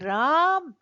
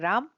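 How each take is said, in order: First: The first vowel is stretched out for a long time. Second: The first vowel is held for a normal length. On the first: Someone far away is being called. "जब हमें राम को पुकारना है ... ये जो रा हमने खींचा" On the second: The name is simply being read. "हमें जब केवल पढ़ना है"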